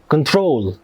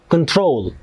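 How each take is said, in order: No difference in how they are said.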